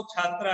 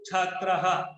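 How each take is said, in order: First: Said in the usual way. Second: छात्रः ending in a clear breathy ह, chhaatraha; visarga as soft h. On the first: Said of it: "छात्रा को बिना विसर्ग के हम". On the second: Shown as a demonstration. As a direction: finish छात्रः with an added soft ह after the last vowel. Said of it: "ह की ध्वनि के साथ उच्चारण करते हैं". (छात्रः के अंत में विसर्ग को हल्की ह की ध्वनि से बोलें)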